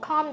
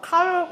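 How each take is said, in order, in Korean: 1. 이 단어는 L 소리 없이 발음해요. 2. 이 단어는 L 소리를 내서 발음해요. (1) "아예 없는 거죠" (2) "calm 이러면 안 되세요"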